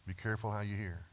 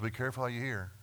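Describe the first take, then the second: First: Soft repeat. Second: Quick, pressing warning; brisk warning. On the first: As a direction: drop the voice and repeat it gently. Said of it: "And so be careful how you hear". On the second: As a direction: say it fast like a warning. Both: Shown as a demonstration.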